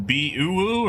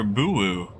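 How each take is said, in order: First: Bee-oo-woo, starting with a separate "bee", drawn out slowly; drawn-out pronunciation. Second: Boo-woo, opening straight on "boo"; merged pronunciation. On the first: Asking Apple how to pronounce it, Bee-oo-woo with separate "bee". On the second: Offering Apple another option, Boo-woo run together as "boo". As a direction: say Boo-woo as two oo syllables, no "bee". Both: Shown as a demonstration. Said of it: "how would you pronounce that".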